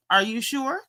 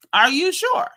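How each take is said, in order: First: Said in the usual way. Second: Doubtful. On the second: Acted. Repeated with rising doubt.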